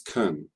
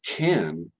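First: The vowel is reduced to a weak schwa. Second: The vowel is full and emphasized. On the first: "so it's can in an actual flow of speech" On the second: "when it's emphasized as can"

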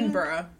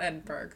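First: The ending sounds like the word borough. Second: The ending does not sound like borough. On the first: The speaker calls it right. "it's more like how you say it. Edinburgh" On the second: The speaker calls it wrong. "not Edinburgh"

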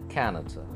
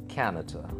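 The two takes are said the same way.

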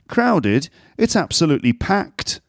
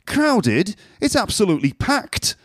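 First: It is said in a neutral accent. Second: It is said in a northern English accent.

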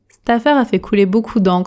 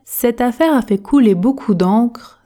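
First: The sentence is spoken fast with dropped sounds. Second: The sentence is spoken at an ordinary speed. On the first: "Version express" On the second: "Version normale"

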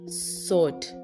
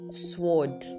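First: The word is said without a w sound. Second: The word is said with a w sound. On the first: The speaker calls it right. "The W is not pronounced" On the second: The speaker calls it wrong. "That is so wrong"

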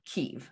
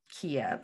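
First: The name is said the Ukrainian way. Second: The name is said the Russian way. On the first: The speaker calls it right. "so Kyiv" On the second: The speaker calls it wrong. "We don't want to say the Russian Kiev"

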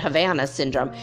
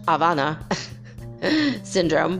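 First: It is said in English, with an H. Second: It is said in Spanish, without an H.

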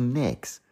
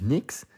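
First: It is said rounder, in a northern accent. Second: It is said plainly, not in the northern way.

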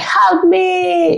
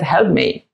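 First: It is screamed dramatically. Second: It is said quietly and calmly.

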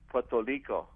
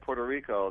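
First: The r in Puerto sounds like an l. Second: The r in Puerto sounds like an r. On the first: "the R's are kind of pronounced like an L" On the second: "instead of saying Puerto Rico"

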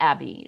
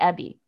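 First: The name is said with a non-New Zealand vowel. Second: The name is said with a New Zealand vowel. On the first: The cat did not recognise its name this way. The speaker calls it wrong. "she would not respond to Abby" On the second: The cat recognised its name this way. The speaker calls it right. "She would only respond to Abby"

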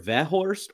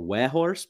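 First: The name begins with a V sound. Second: The name begins with a W sound. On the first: "saying V or W" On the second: "saying V or W"

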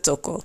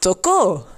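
First: The stress is on the first syllable. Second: The stress is on the last syllable. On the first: I touch you. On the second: He touched you.

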